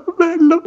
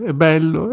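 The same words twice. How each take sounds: First: "bello" detto molto più in alto, con enfasi crescente; sempre più acuto. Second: Said in the usual way. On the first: Shown as a demonstration. ("è bello" in falsetto ironico)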